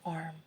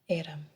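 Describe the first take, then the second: First: The word is said with one syllable. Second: The word is said with two syllables.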